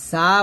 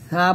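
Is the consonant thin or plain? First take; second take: plain; thin. First: The consonant is said plain, not thin. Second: The consonant is said thin, tongue at upper teeth. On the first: The speaker calls it wrong. "সা বলা যাবে না" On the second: The speaker calls it right. "এরকম পাতলা করে সা বলতে হবে"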